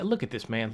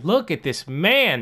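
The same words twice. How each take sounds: First: Soft, under-the-breath look at this; muttered disbelief. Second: Louder, slow, disgusted repeat; exasperated. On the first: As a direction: grumble it to yourself. Muttering at a bad player. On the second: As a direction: drag it out in disbelief. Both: Real, not acted.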